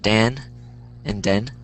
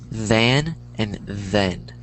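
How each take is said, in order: First: Both words begin with a d sound. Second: Both words begin with a th sound. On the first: The speaker calls it wrong. "That's how people are pronouncing it" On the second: The speaker calls it right. "but it's the"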